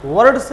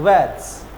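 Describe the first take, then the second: First: "वर्ड्स" loud with a sounded R, like "va-rads"; wrong R pronounced. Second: "वर्ड्स" as drawn-out "vets", no R; silent R. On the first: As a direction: hit the R clearly in "वर्ड्स". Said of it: "वर्ड्स नहीं बोलते हैं". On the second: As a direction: leave the R out of "वर्ड्स". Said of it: "तो इसे क्या बोलते हैं?". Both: Shown as a demonstration.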